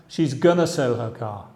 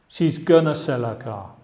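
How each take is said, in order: First: Going to is reduced to a short gonna. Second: Going to is reduced to a short gonna.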